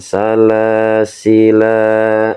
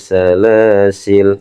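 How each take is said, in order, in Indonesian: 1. Kata ini berakhir dengan bunyi vokal. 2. Kata ini berakhir dengan konsonan, vokalnya dihilangkan. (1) "nggak boleh teman-teman salah sila, nggak boleh" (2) "berarti ini harus dibaca sukun"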